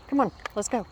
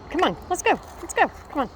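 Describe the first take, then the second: First: Just say it over to yourself, more easily; milder repeat of the dream call. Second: High, loud urgent call to hurry; dream voice calling. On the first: Repeating the dream phrase to herself, only lightly raised. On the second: Recalling the dream's phrase, calling out high and loud. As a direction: call out like waking someone from a dream. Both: Retold or imitated. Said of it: "it's simply a phrase".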